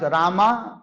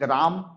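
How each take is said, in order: First: The name ends with an added a vowel. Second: The name ends on the m sound. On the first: The speaker calls it wrong. "If you pronounce Rama, pronunciation is wrong" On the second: The speaker calls it right. "but we speak Ram"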